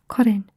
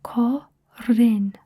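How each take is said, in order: First: Said in the usual way. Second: "Korin" drawn out as two parts, ko - rin; syllable-by-syllable demo. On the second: Shown as a demonstration. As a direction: model "Korin" slowly, a gap between the syllables. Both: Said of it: "we can practice saying it first".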